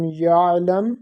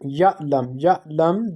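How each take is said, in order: First: "ya'lam" joined through a voiced throaty ayn; sounded ayn, no pause. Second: "ya'lam" cut by an abrupt stop after "ya"; sudden pause. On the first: Teacher shows student the correct "ya'lam", ayn sounded without sudden pause. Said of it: "make the sound of ayn there". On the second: Teacher shows student the mistake, "ya'lam" with a sudden pause after "ya". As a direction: say "ya'lam" with hamza's sudden catch in place of ayn. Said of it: "with a sudden pause". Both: Shown as a demonstration.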